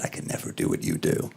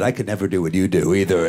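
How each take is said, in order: First: Very low, soft confession; imitating an awed man, low and quiet; hushed admiration. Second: Said in the usual way. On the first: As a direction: say it under your breath, deep down.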